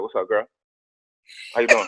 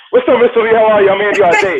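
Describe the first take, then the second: First: Put-on low, soft, flat greeting to a girl; cool guy pickup line. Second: Higher, louder, bright smiling welcome; cheerful salesman greeting. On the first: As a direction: play it cool with the date. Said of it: "My first date was like". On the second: Retold or imitated. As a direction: greet the client with a big smile. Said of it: "I was like".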